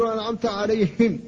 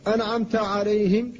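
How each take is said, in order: First: عليهم with a voiced, pushed ه; faulty عليهم, ه voiced; voiced ha error. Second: عليهم with a breathy, voiceless ه; whispered ha. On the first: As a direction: demonstrate the wrong عليهم with voiced ه. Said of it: "وهذا لحن". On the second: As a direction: correct عليهم, ه unvoiced. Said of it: "فقل". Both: Shown as a demonstration.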